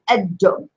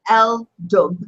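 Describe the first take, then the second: First: No L sound; the D is doubled. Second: An L sound is heard before the D. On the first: The speaker calls it right. "You say ad-dub" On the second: The speaker calls it wrong. "you don't say el-dub"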